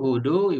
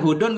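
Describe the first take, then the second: First: The name ends on a vowel, without n. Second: The name ends with an added n sound. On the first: "enggak pakai tanwin" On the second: "boleh pakai tanwin"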